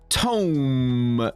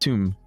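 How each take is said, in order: First: The vowel is an 'oh' sound. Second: The vowel is an 'oo' sound. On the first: The speaker calls it wrong. "No, that's tome" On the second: The speaker calls it right. "That's tomb"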